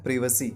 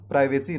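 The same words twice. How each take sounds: First: प्रिवेसी with short first vowel; British pronunciation. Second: प्राइवेसी starting "pry"; long i in the first syllable of प्राइवेसी; American pronunciation. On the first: Teacher gives the correct form, प्रिवेसी as "PRIV-esi". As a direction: start प्रिवेसी "priv", not "pry". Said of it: "इस word का सही उच्चारण होता है". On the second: Teacher shows the form to avoid, प्राइवेसी as "PRY-vesi". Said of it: "इस word को हम प्राइवेसी नहीं कहते". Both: Shown as a demonstration.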